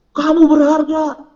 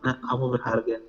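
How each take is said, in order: First: High, drawn-out mock yell; mock shout. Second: Low, hushed reassurance; soft gentle voice. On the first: Preacher showing youth how God would not speak, shouting. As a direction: yell it slowly, far higher and louder. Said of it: "gak bakal teriak-teriak". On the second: Acted. God touching a heart, speaking softly. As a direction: drop low and soft, as if close by. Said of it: "terus cuma bilang".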